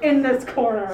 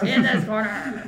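First: Ring announcer. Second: Wrestling ring announcer, mild hype. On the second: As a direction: call it out like a ringside announcer. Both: Pretend. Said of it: "pro wrestling sound effects".

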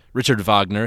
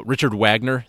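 First: Wagner said as "Vahgner", with a German V; German pronunciation. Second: Said in the usual way. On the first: Shown as a demonstration. Giving the composer's name, German pronunciation of Wagner. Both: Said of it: "if you're in German".

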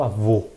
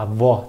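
First: "avô" with a rounded, closed "ô"; closed final vowel. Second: "avó" with an open "ó", as in "pó"; open final vowel. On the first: Teacher contrasting acute and circumflex accents, closed-vowelled "avô". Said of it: "é mais fechado". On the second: Teacher contrasting acute and circumflex accents, open-vowelled "avó". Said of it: "que é mais aberto". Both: Shown as a demonstration.

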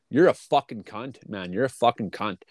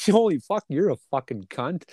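First: Flat, cold, meant for real; mean insult. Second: Friendly insult. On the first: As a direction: say it like you truly despise them. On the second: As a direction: toss the insult off like a joke between mates. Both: Shown as a demonstration. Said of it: "it changes from the way you hear it".

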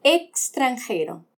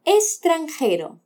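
First: Extranjero with the x said as a clear ks, ekstranjero, slowly; full ks sound. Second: Extranjero with the x said as a plain s, estranjero, slowly; Spanish-style x. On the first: Teacher showing the Mexican way, Extranjero as ekstranjero. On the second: Teacher showing the Spanish way, Extranjero as estranjero. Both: Shown as a demonstration. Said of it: "practicamos ambas pronunciaciones".

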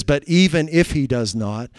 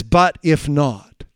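First: Said in the usual way. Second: But if not. said very slowly, each word apart; slow emphatic read. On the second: Shown as a demonstration. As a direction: weigh But if not. as the true text. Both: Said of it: "that is completely wrong".

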